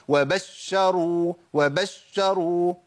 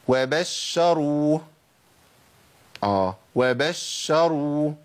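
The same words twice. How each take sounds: First: وبشروا with a push of stress on the doubled sh; pushed shin. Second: وبشروا recited slowly with an even, doubled sh; doubled shin. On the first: Teacher mimicking a common mistake, jolted doubled shin in وبشروا. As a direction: punch into the sh of وبشروا. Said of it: "بيعمل دفع ونبرة عند الشين". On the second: Teacher giving the example, even doubled shin in وبشروا. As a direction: hold the doubled sh of وبشروا smoothly. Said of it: "شين مشددة أهي". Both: Shown as a demonstration.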